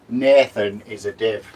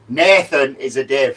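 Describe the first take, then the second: First: It is said at normal volume. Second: It is said loudly.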